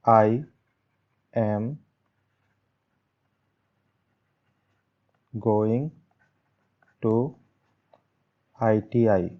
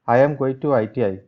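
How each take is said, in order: First: It is said as a calm, plain statement. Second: It is said as an excited exclamation. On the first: It simply states a plan. "यहाँ पे मैंने लगाया full stop" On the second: The speaker is happy about going. "तो मैं excited हो जाऊंगा"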